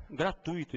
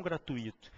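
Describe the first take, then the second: First: Gratuito stressed on TUI, one syllable; correct pronunciation. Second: Gratuito split as gra-tu-Í-to; wrong pronunciation. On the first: Teacher gives the right form, gratuito stressed on the U. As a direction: say gratuito as gra-TÚI-to. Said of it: "O que não custa nada é". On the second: Teacher shows what not to say, gratuito stressed on I. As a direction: stress the I of gratuito as a separate syllable. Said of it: "e não gratuito". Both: Shown as a demonstration.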